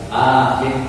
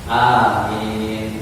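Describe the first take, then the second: First: The vowels are not drawn out long. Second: Both vowels are drawn out long. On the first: The speaker calls it wrong. "bukan amin, bukan gitu" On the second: The speaker calls it right. "a itu harus panjang, i harus panjang"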